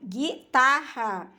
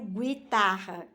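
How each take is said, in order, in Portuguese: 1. O g vai direto para a vogal. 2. Um som de 'w' vem depois do g. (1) "eu pronuncio o G e o I, ficando gui" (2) "Eu não pronuncio guitarra"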